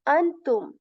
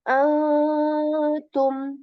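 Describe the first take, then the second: First: The n sound is fully articulated. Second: The n is hidden as a nasal sound. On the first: The speaker calls it wrong. "I am not saying antum. I'm not articulating noon here" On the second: The speaker calls it right. "This is like a nasal sound"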